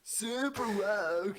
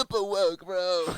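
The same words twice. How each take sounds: First: Slow, high stoner drawl; mocking surfer voice. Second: High, loud stoner surfer; surfer dude voice. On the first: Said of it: "I love, uh, the mocking voice". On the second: Retold or imitated. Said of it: "sounds like a skater dude slash surfer dude".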